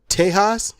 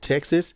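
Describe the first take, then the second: First: The middle consonant is an h sound. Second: The middle consonant is a ks sound. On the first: It follows the original local pronunciation. "I like to call it Tejas because I think that might be the original pronunciation" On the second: It follows the common present-day pronunciation. "as some want to call it Texas"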